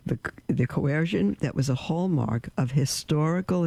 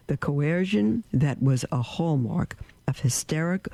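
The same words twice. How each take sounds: First: Said in the usual way. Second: Slip, "hysteric" said as hiss-TER-ick in place of "historical"; stumble, reading "hysteric" with stress on the middle; misread word. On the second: Real, not acted. Preacher misreads the quote to listeners, saying "hysteric" instead of "historical". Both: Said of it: "I think that was a proper mistake".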